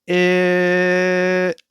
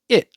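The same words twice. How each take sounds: First: The vowel is held out for a long time. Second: The vowel is said briefly. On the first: "and here it's long" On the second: "Here it's short"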